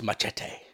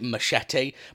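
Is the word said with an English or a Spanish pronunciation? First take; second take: Spanish; English. First: The word is said with a Spanish pronunciation. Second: The word is said with an English pronunciation. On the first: The speaker calls it right. "but apparently it's pronounced machete" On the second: The speaker calls it wrong. "I always used to call it machete"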